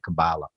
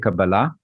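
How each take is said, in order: First: The stress falls before the last syllable. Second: The stress falls on the last syllable.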